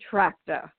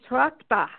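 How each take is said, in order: First: It sounds like the word 'tractor'. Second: It does not sound like 'tractor'. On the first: This is how the name has come to be said. The speaker calls it wrong. "it's become Trachta, kind of like a tractor" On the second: This is the original pronunciation of the name. The speaker calls it right. "It should be Trachta"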